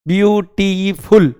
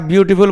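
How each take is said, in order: First: ब्यूटीफुल broken into three beats, ब्यू-टी-फुल; ब्यूटीफुल in three separate chunks for a class; split into syllables. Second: Said in the usual way. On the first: Shown as a demonstration. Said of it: "तीन खंड में बोला गया". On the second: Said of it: "खंड करते हैं".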